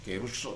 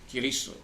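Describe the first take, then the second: First: The second vowel sounds like 'oo'. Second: The second vowel sounds like 'ee'. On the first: This is the older taught reading. "dulu saya diajar keruso" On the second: This is the modern Greek reading. "Ipsilon itu dibaca i"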